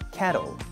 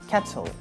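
First: The T is a soft flap, close to an L sound. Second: The T is a clear, crisp T sound. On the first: "In American English, the T sound is the flat sound like L" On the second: "in British English, it's the clear T sound like T"

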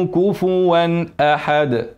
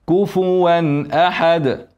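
No difference in how they are said.

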